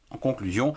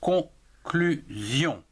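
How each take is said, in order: First: Said in the usual way. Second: "conclusion" drawn out very slowly as con-clu-sion, each of the three syllables separated; slow, deliberate split of "conclusion" into three beats. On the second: Shown as a demonstration. Teacher showing learners the syllables of "conclusion", slowly and clearly. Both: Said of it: "trois syllabes".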